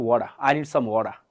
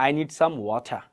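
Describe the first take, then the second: First: Slow, "water" with a flapped D; American pronunciation. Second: "water" with an aspirated T; crisp T in "water", no flap; non-American T. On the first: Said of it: "তাহলে ওরা কি বলবে?". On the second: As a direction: say "water" as "wo-tha". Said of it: "ওরা কিন্তু বলবে না". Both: Shown as a demonstration.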